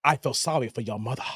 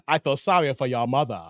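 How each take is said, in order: First: Very low, soft, quick deadpan; in character as the clerk. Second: Much lower deadpan; low, cold, matter-of-fact; clerk's line. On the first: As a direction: sink deep into the clerk's voice. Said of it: "Let me get in the character". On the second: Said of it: "gotta get the tone right". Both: Retold or imitated.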